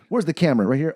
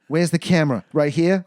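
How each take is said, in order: First: It is said in an ordinary, unaccented voice. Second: It is said in a put-on Australian-Jersey accent. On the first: The speaker calls it wrong. "no, no, with the accent" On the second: The speaker calls it right. "With the accent"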